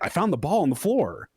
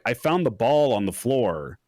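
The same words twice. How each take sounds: First: The sentence is said with lively, natural intonation. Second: The sentence is said in a flat, monotone way. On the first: It sounds like a real person. The speaker calls it right. "when someone would be like" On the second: It sounds like a machine voice. The speaker calls it wrong. "it just sounds super flat to me"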